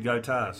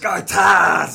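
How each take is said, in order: First: It is said flat, without enthusiasm. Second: It is said loudly, with enthusiasm.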